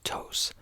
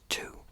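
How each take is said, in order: First: The name is said the Spanish way. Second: The name is said like the word two. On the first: The brand's own language is Spanish. The speaker calls it right. "This is a Spanish company, and it is pronounced Tos" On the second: Someone else said it should be said this way. The speaker calls it wrong. "somebody commented and said it was actually pronounced two"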